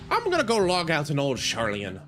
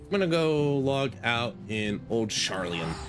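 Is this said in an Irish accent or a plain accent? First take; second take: Irish; plain. First: It is said in a put-on Irish accent. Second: It is said in the speaker's ordinary accent.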